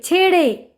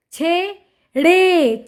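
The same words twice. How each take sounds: First: Said in the usual way. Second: छे and ड़े slow and separate; sounding out. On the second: Shown as a demonstration. Teacher reading to children, syllable by syllable. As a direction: stretch both halves: छे... ड़े. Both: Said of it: "उच्चारण करके पढ़ लिया".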